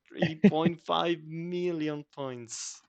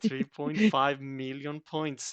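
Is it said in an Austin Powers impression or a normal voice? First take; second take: Austin Powers; normal. First: It is said as an Austin Powers impression. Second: It is said in his normal voice.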